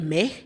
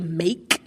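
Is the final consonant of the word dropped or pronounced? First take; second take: dropped; pronounced. First: The final k sound is dropped. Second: The final k sound is clearly pronounced. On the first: "I may say meh" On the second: "I won't necessarily say make"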